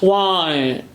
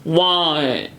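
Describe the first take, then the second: First: The final T is replaced by a soft vowel. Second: The final T is replaced by a soft vowel.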